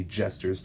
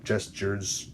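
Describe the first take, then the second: First: "gestures" stumbled, said oddly as jester-z; mispronounced. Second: "Gestures" said again carefully, JES-churs; slow careful redo of "Gestures"; corrected pronunciation. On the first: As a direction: trip over "gestures" with an unclear g. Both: Real, not acted. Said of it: "Sorry, I said that weird".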